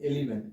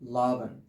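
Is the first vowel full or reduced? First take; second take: full; reduced. First: The first vowel is full and clear. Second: The first vowel is reduced and weak. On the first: The speaker calls it wrong. "আগে আমরা বলতাম কি এলিভেন, এলিভেন না" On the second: The speaker calls it right. "এটা হচ্ছে কি লাভেন"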